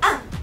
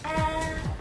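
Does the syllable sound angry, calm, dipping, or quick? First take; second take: angry; calm. First: The syllable sounds sharp, as if angry. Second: The syllable is said calmly and smoothly. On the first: "Ang fourth tone, parang galit" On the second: "Ang first tone, dapat malumanay"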